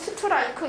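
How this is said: It is said with a Korean accent. "우리나라도 스트라이크 이렇게 뭐 발음하는 경우 많잖아요"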